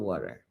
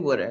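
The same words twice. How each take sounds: First: It is said with a standard general accent. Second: It is said with a local Delaware accent. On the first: "instead of water" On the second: "I do say water"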